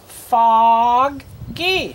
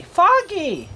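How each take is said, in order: First: Foggy split slowly into FOG, then GEE; slow, broken-up Foggy; word sounded out. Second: Foggy said whole, high and quicker; higher, joined-up Foggy; word blended. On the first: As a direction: sound out Foggy in two held parts. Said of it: "we're gonna do these words first". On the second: Word blended after sounding out. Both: Shown as a demonstration.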